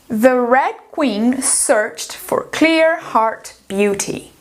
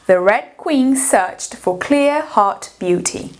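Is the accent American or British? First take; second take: American; British. First: Spoken in an American accent with R sounds. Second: Spoken in a British accent without R sounds. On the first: "Vamos ler essa frase primeiro em americano" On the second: "Em britânico"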